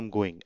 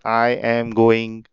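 First: 'I am' is run together into 'I'm'. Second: Each word is said separately, stiff and robotic. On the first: The speaker calls it right. "बोलते हैं आई एम गोइंग, अम अम कर देते हैं" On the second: The speaker calls it wrong. "ऐसे नहीं बोलते robot की तरह"

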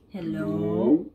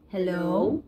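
First: The voice is altered to sound like an old man. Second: The voice is altered to sound like a woman. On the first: "So I think this is a old man voice" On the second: "I think it's a lady's voice"

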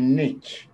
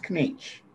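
First: The K at the start is silent. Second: The K at the start is pronounced. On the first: The speaker calls it wrong. "Everybody, even the English, are saying Knetsch, but it's not Knetsch" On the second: The speaker calls it right. "You pronounce the K"

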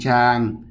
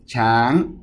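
First: The syllable has a mid level tone. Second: The syllable has a high tone.

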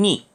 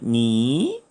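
First: The syllable is said with the fourth tone. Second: The syllable is said with the second tone. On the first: "제4성으로 읽으면 니" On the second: "제2성으로 읽으면 니"

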